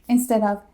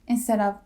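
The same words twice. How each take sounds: The two takes are said the same way.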